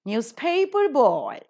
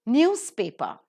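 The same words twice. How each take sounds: First: Put-on newspaper boy with PAPER high and stretched; stress on second word. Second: Newspaper with NEWS punched, paper lighter; newspaper, weight on news; stress on first word. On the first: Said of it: "will take the stress on the second". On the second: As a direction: hit the start of newspaper, let it fall. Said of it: "take the stress on the first syllable". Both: Shown as a demonstration.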